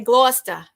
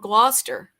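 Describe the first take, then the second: First: It is said in the local Massachusetts accent. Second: It is said in a non-local American accent. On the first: A native of the town says it. "They say Gloucester" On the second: An outsider to the town says it. "But I don't say it like they do"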